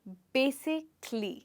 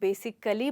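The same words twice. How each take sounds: First: The vowel in the ending is dropped. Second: The vowel in the ending is pronounced. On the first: The speaker calls it right. "अगर आप इस ए को नहीं बोलेंगे" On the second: The speaker calls it wrong. "ज़्यादातर लोग इसको basically बोलते हैं"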